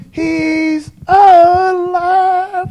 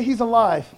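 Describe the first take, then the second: First: Very high, loud, drawn-out cry of praise; soaring, long-held hallelujah shout; Larry Berry shout. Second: Said in the usual way. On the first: Retold or imitated. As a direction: stretch it out long and high like a preacher in full cry. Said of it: "I wish Larry Berry was here right now to say". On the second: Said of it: "Everybody say".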